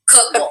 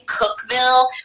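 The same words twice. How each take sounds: First: The ending is a reduced Tennessee 'vul' sound. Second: The ending is a full 'vill' sound.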